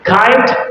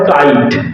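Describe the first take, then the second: First: The k is breathy, with a puff of air. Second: The k is plain, without a puff of air. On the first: The speaker calls it right. "ইংলিশে সব খ" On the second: The speaker calls it wrong. "যেগুলোকে ক দিয়ে উচ্চারণ করো"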